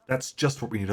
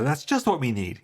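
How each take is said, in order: First: "That's just what we need" said evenly, stress on "just", falling at the end; unexcited "That's just what we need", falling off at the end; dry intonation. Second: "That's just what we need" lifted, with a rising push on "just"; bright, lifted read of "That's just what we need"; eager intonation. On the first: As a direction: keep it level and dry, lean on "just". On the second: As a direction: sell it like it's good news, punch "just". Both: Shown as a demonstration. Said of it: "what's the intonation meant to be there".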